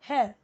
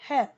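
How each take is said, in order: Both takes have the same delivery.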